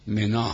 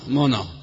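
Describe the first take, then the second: First: The name is said in its standard vowel form. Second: The name is said in a colloquial vowel form. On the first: The speaker calls it right. "در حالی که منا هست" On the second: The speaker calls it wrong. "اون تلفظ عامیانه عرباست"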